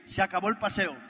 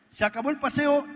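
First: Said in the usual way. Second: Louder and higher, with firm finality on "paseo"; emphatic repeat. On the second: Real, not acted. Telling the audience he dropped the afternoon walks, a louder, firm repeat.

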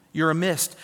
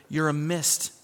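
Both takes have the same delivery.

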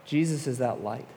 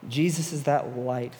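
First: Said in the usual way. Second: "Jesus is that light" slowed down, each word weighed; slow emphatic repeat. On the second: Shown as a demonstration. Youth pastor driving it home to students, slow and emphatic. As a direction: lean on it slowly the second time. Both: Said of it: "repeated line".

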